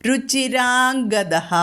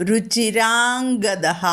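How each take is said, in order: Both takes have the same delivery.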